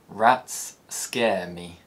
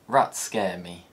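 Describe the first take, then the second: First: Both s sounds are said separately. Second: The two s sounds merge into one.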